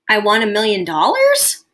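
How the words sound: The voice rises at the end like a question.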